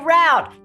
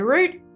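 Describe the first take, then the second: First: It is said the way Americans pronounce it. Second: It is said in the speaker's own non-American accent. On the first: "Americans would say route" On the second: "I would say route"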